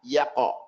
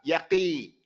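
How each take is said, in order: First: The q ends in a light bounce without vowel. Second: The q is followed by an i vowel. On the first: The speaker calls it right. "Just that they separate" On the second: The speaker calls it wrong. "or separate to a kasra"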